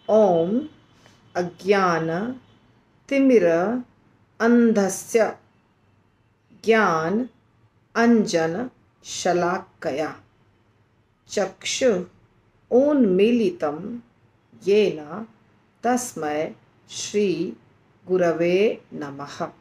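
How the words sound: It is recited with breaks between the separate words.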